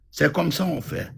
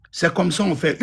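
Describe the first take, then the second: First: Settled final fall on ça; softer closing repeat. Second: Said in the usual way. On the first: Real, not acted. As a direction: repeat it as a quiet verdict.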